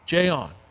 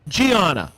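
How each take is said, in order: First: The name is said like the letter J plus on. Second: The name is said with three syllables, like Gianna. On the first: The speaker calls it right. "It's like the letter J on" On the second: The speaker calls it wrong. "I think it's pronounced Gianna, but I could be wrong"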